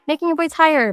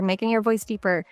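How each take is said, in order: First: "higher" lightly lifted in pitch; slightly raised pitch illustrating "higher". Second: "deeper" dropped lower and softer; slightly lowered, softer voice illustrating "deeper". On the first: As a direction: lift the voice a little on "higher". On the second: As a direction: sink the voice a little on "deeper". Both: Shown as a demonstration.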